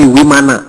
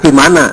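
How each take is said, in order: First: The word begins with a w sound. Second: The word begins with a v sound. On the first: The speaker calls it right. "Kalau V dibacanya W. ... tapi Wimana" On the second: The speaker calls it wrong. "Jadi bukan Vimana"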